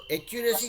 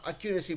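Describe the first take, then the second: First: एक्यूरेसी with a clear "e" sound at the start; wrong first vowel. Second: एक्यूरेसी opening on a short "a" sound; correct first vowel. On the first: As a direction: say एक्यूरेसी opening on "e", the way to avoid. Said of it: "एक्यूरेसी नहीं बुलाएंगे". (एक्यूरेसी को "ए" से शुरू करके, गलत उच्चारण) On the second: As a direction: say एक्यूरेसी starting with "a", not "e". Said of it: "हम एक्यूरेसी बुलाएंगे". (एक्यूरेसी को "अ" से शुरू करके, सही उच्चारण) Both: Shown as a demonstration.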